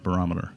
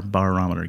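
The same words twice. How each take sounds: First: Said in the usual way. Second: BAR-ometer, first syllable like the drinking bar; pun pronunciation. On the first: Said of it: "Get it?". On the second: Shown as a demonstration. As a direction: sound out the bar in Barometer. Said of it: "B A R".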